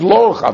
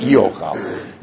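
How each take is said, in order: First: "lo ochal" with a clear separate "lo" before ochal; reading lo ochal. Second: "e ochal" with a short e sound gliding into ochal, said slowly; wrong reading e ochal. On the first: Teacher showing the text's actual wording, careful demo. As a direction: say "lo ochal", the lo as its own word. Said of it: "not e ochal". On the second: Teacher showing the wording the text does not have, slow demo. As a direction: read it as "e ochal", drawn out, the rejected version. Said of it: "It says lo ochal, not". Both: Shown as a demonstration.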